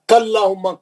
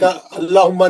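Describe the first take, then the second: First: The ka runs straight into allahumma. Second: The ka is said separately before allahumma. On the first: The speaker calls it right. "काफ के जबर से मिलो" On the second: The speaker calls it wrong. "का अल्लाहुम्मा नहीं है"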